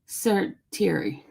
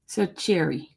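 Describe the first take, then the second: First: The middle consonant is a clear t sound. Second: The middle consonant is a sh sound. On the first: "wouldn't you have to say the T word in there?" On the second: "I'm gonna say it the way um you have me. ... Doesn't sound right"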